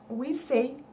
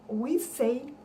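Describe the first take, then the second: Both takes have the same delivery.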